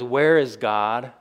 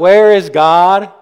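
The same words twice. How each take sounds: First: It is said at a normal, calm volume. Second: It is said almost as a shout.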